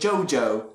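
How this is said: The vowel starts with a neutral schwa sound. "that was what um, Speedwagon pronounced it"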